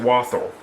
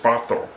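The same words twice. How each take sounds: First: It is said with a British pronunciation. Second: It is said the German way, W as V. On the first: "the U K, they say Walther" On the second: "in German, the uh, W makes a V sound"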